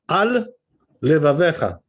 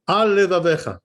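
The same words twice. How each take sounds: First: There is a short stop between the words. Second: The two words run together without a break. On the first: It sounds like two separate words. The speaker calls it right. "you have to stop there" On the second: It sounds like one word. The speaker calls it wrong. "if you say it too fast without interrupting there, without stopping"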